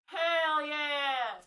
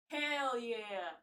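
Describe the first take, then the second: First: Loud, higher shouted hell yeah. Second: Said in the usual way. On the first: Real, not acted. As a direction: yell it out in triumph. Hell yeah shouted second time.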